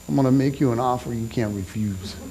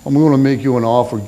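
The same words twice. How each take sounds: First: Low, quiet mob-boss rasp of a Godfather offer; a preacher's attempt at the Godfather, much lower and softer; Marlon Brando Godfather. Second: A quick, lightly voiced second go at the Godfather; retry the Brando offer, faster and barely in character; Marlon Brando retry. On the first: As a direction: lean in low and soft like a mafia don. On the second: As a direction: rush a half-hearted mob-boss line. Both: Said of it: "The Marlon Brando thing".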